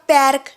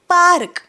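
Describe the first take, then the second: First: The vowel is a short front 'a' sound. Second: The vowel is a long open 'ah' sound. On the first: The speaker calls it wrong. "पॅर्क नाही" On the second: The speaker calls it right.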